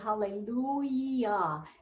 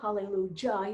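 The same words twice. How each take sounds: First: The last syllable starts with a soft 'y' sound. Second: The last syllable starts with a hard 'j' sound. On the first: The speaker calls it right. "You say hallelujah" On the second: The speaker calls it wrong. "You never say ja"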